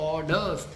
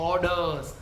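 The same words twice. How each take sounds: Both takes have the same delivery.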